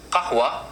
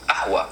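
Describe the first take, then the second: First: Said in the usual way. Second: Ahwa with the initial q left out; dropped qaf. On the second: Shown as a demonstration. Teacher showing Lebanon's coffee word, ahwa without q. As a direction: start ahwa straight on the vowel. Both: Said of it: "they just drop that pa".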